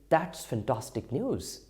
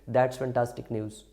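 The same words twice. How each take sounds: First: It is said with lively, excited emotion. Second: It is said flatly, without emotion. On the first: The speaker calls it right. "But when we say" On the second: The speaker calls it wrong. "now it doesn't have those emotions"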